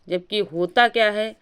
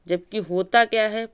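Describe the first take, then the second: No difference in how they are said.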